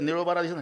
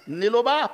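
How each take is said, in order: First: The middle consonant is a retroflex ḷ sound. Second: The middle consonant is a plain l sound.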